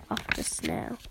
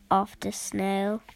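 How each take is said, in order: First: Softer, breathy fade-out whisper; fading whisper. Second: Said in the usual way. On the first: A narrator's reading. Narrator ending the snail line, fading whisper. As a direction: let it die away to a whisper.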